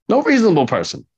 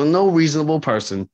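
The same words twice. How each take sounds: First: "No reasonable person" higher and louder, "No" hit hard; emphatic repeat. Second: Said in the usual way. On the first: Real, not acted. Hammering his point home to coworkers, emphatic.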